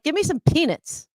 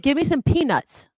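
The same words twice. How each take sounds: First: Peanuts is blurred so it sounds like penis. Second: Peanuts is said clearly with every sound distinct. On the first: The speaker calls it wrong. "you're like" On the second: The speaker calls it right. "that's a very clear, obvious way to say it"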